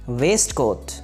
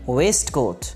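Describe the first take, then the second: Both takes have the same delivery.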